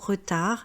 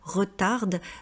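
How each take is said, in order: First: The final consonant is silent. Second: The final consonant is pronounced. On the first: The speaker calls it right. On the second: The speaker calls it wrong.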